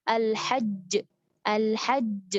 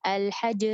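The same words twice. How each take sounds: First: Al-hajj with a doubled, stressed j; correct al-hajj. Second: Al-hajj with a single j, letter lost; wrong al-hajj. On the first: Teacher demonstrating the correct al-hajj. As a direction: press the j in al-hajj. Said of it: "harusnya kita baca". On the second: Teacher demonstrating the wrong al-hajj. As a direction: drop the doubling in al-hajj. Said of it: "satu huruf hilang". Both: Shown as a demonstration.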